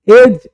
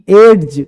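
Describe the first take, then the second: First: A separate d sound comes before the j. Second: A separate d sound comes before the j.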